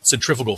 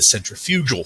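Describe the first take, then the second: First: Said in the usual way. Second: Centrifugal said sen-tri-FYOO-gul; "centrifugal" leaning on the third syllable, FYOO; stress on wrong syllable. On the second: Shown as a demonstration. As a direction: say "centrifugal" with the stress moved onto FU. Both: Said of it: "pronounce it with the emphasis on the wrong syllable".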